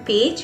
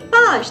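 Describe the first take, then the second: First: It is pronounced the English way. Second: It is pronounced the French way. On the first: "The spellings are same but the pronunciation is different" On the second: "we say page"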